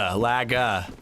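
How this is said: It is said in a Worcester accent, r dropped.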